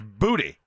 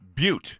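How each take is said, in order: First: The name is said the local Louisiana way. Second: The name is said the general American way. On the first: This is how it is said in Louisiana. "But in Louisiana it's Booty" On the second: This is how it is said outside Louisiana. "Like anywhere else in the country it'd be Butte or Boat"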